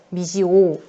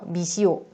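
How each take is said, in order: First: The final vowels stay in separate syllables. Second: The final vowels merge into one glide. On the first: The speaker calls it right. "원칙 발음은" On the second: The speaker calls it wrong. "이중모음화가 돼서 발음을 하기도 한다"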